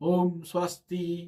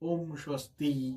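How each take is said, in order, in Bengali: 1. এটি মধ্যস্বরে বলা হয়েছে। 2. এটি নিম্ন স্বরে বলা হয়েছে। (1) "মধ্যস্বরে বলবে" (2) "নিম্ন স্বরে বলবে"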